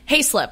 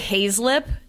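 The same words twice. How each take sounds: First: The middle consonant is a clear S sound. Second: The middle consonant is a buzzing Z sound. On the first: The speaker calls it right. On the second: The speaker calls it wrong.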